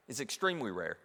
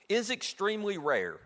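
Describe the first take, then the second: First: Extremely pressed, the line dropped lower and softer; stress on EXTREMELY. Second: Is stretched and raised, extremely rare falling after; emphatic It IS extremely rare; stress on IS. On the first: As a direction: lean on the word extremely, quietly. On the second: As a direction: lean hard on the word is. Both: Shown as a demonstration.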